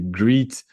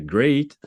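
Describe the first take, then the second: First: The vowel sounds like 'ee' in 'see'. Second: The vowel sounds like 'ay' in 'say'. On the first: The speaker calls it wrong. "je disais greet" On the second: The speaker calls it right. "j'aurais dû dire great"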